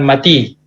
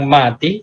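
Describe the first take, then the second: First: The first vowel is kept short. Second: The first vowel is drawn out long. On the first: The speaker calls it wrong. "bukan mati" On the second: The speaker calls it right. "kenapa kita baca panjang mati"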